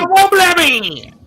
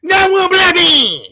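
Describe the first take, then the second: First: Mock yelled chant, a little higher and louder; parroting them in a hammed-up taunt; mocking imitation. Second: Higher, louder whiny mock cry; mocking imitation. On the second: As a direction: wail it out like a parody of them. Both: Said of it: "That's how these guys talk".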